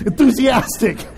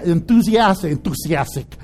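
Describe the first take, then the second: First: Said in the usual way. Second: Accidental slip into a Mexican accent; "enthusiastic" low, slipping Mexican-accented. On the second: Real, not acted. Preacher stumbling over a word, accidental Mexican accent. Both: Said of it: "I got Mexican all of a sudden".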